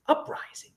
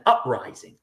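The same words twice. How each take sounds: First: Breathed under his breath, no voice; voiceless sarcastic aside; whispered mock echo. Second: Said in the usual way. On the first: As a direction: whisper the word back in scorn. Mocking her word for riot.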